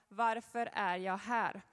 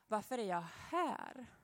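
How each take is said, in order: First: The word här carries no special stress. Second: The word här carries the main stress. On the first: The question asks about purpose in general. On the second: The question asks why one lives in this particular place.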